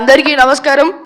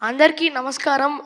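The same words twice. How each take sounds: First: It is said in an imitated, dramatic film-hero voice. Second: It is said in the speaker's ordinary voice.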